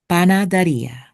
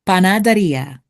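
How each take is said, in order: First: Panaderia repeated, pah-nah-deh-REE-ah with a lightly tapped r; Panaderia, careful Spanish repeat; Spanish pronunciation. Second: Panaderia said the Spanish way, pah-nah-deh-REE-ah; panaderia, clear Spanish vowels; Spanish pronunciation. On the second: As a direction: give panaderia its Spanish sounds. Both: Shown as a demonstration. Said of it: "is a Spanish term for bakery".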